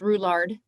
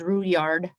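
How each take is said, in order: First: The name is said with an English-style pronunciation. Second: The name is said with a French-style pronunciation. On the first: The speaker calls it wrong. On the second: The speaker calls it right.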